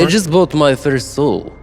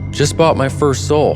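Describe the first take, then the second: First: It is said in a put-on Russian accent. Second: It is said in a plain, unaccented voice.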